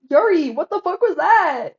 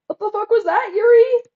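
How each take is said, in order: First: Slow, loud, higher outburst of disbelief; stunned shout. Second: Much higher and louder, ending in a rising yelp on the name; rising disbelieving shout. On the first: Streamer shouting at Yuri over her line, slow stunned yell. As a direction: yell it slowly in real shock. Shocked reaction to a game line. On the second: Streamer yelling again at Yuri, pitch climbing into a shriek. Repeats the outburst, even bigger. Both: Real, not acted.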